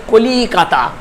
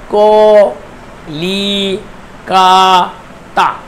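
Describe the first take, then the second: First: Said in the usual way. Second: ক, লি, কা, তা said as four separate beats with pauses between; split into syllables. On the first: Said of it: "একটি উদাহরণ হচ্ছে Calcutta". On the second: Shown as a demonstration. Teacher shows students each syllable of Calcutta, pausing between them. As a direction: break Calcutta into ক, লি, কা, তা, one by one. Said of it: "এই যে চারটে যে দল হয়েছে".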